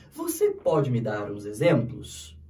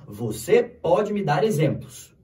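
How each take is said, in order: First: Slow question with a marked questioning lift; question tune. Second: Slow, even statement with a falling end; statement tune. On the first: Teacher showing how tone makes a question, questioning tune. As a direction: turn the statement into a question by tone alone. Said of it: "dependendo do tom, se eu falo assim". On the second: Teacher showing how a Portuguese statement sounds, falling statement tune. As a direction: say it as an affirmation, not a question. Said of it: "Isso é uma afirmação". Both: Shown as a demonstration.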